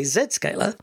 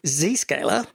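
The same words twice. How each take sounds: First: Zscaler said as "Zed-scaler"; British "Zed" pronunciation. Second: Zscaler said as "Zee-scaler"; American "Zee" pronunciation. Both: Shown as a demonstration. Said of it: "or as I like to say".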